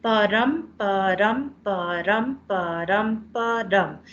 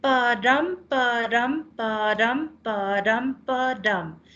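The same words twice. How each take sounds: First: "Ba-dum" with a light "Ba" and a stressed "dum", each beat rising, the last falling; steady da-DUM pulse on each "Ba-dum"; heartbeat rhythm. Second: "pa-dum" with a light "pa" and a stressed "dum", each beat rising; da-DUM da-DUM, "pa-dum" beaten out evenly; heartbeat rhythm. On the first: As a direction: beat out the iamb like a heartbeat for the class. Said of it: "it sounds exactly like a heartbeat". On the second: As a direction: tap out the iamb like a steady heartbeat. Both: Shown as a demonstration.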